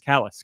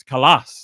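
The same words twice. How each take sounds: First: "Callus" said like the hard skin word; first-syllable stress. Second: "Callus" as kuh-LAHS; louder "Callus", stressed on an ah second syllable. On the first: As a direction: say "Callus" as KAL-uss. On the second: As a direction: land hard on the end of "Callus": kuh-LAHS. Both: Shown as a demonstration. Trying out pronunciations of a name.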